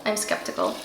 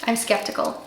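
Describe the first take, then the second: First: Whispered I'm skeptical aside. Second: Said in the usual way. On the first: Shown as a demonstration. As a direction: whisper it like a secret doubt.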